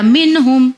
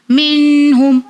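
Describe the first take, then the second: First: "मिन हुम" with a short, clear n. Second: "मिन हुम" with the n drawn out in a hum; wrong held n. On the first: Teacher showing the clear reading, "मिन हुम" with unheld n. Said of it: "मैंने clear पढ़ा". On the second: Teacher showing the wrong reading, "मिन हुम" with long hummed n. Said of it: "अगर इस तरह पढ़ूंगी तो रॉन्ग हो जाएगा". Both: Shown as a demonstration.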